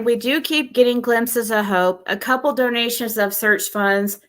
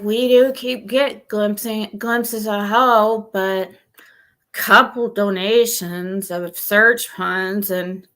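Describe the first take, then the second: First: It is read in a normal voice. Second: It is read in a gloomy Eeyore voice.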